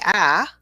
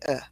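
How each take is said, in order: First: The vowel is a full open 'ah' sound. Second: The vowel is a weak neutral 'uh' sound. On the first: The speaker calls it wrong. "instead of saying ah, which is probably what our students do" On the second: The speaker calls it right. "we actually say uh"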